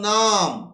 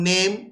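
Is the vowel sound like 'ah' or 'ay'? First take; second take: ah; ay. First: The vowel is an open ah sound. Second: The vowel is an ay sound. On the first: This is the older pronunciation. "আগে নেমটাকে উচ্চারণ করা হতো নাম" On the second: This is the modern pronunciation. "এখন নেম"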